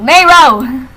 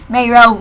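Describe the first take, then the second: First: Raised-voice call of a name; an exclaimed, drawn-out name. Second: Said in the usual way. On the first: Real, not acted. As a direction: call out to a friend. Calls out to friend.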